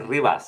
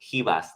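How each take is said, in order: First: The R is rolled. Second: The R sounds like an H. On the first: The speaker calls it wrong. "I gotta roll the R's" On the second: The speaker calls it right. "they sometimes pronounce the R like an H"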